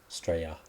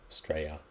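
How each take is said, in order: First: The word is said the casual Australian way. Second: The word is said the casual Australian way.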